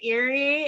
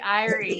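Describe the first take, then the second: First: The name begins with an 'eer' sound. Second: The name begins with an 'eye' sound. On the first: The speaker calls it wrong. "I always say Erie" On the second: The speaker calls it right. "it's supposed to be Irie"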